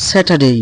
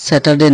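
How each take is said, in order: First: "স্যাটারডে" as se-ta-dey; corrected pronunciation. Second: "স্যাটারডে" with short final de; wrong pronunciation. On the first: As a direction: model "স্যাটারডে" with a long gliding "day". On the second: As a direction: say "স্যাটারডে" ending in unglided de. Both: Shown as a demonstration. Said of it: "স্যাটারডে না".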